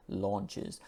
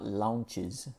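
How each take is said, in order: First: "launches" with a rounded aw; correct "launches". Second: "launches" with an open ah, lahn-ches; the wrong "launches", vowel like ah; Latin-speaker "launches". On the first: Teacher modelling the right vowel, softly. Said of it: "the sound is aw". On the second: Teacher imitating Latin learners, slow and careful. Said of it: "it's not launches, as a lot of Latin speakers would say". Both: Shown as a demonstration.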